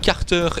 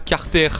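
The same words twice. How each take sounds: First: The ending is said as a full 'er' sound. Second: The ending is said as a bare 'r' sound. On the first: The speaker calls it right. "on dit Carter" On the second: The speaker calls it wrong. "et pas Carter"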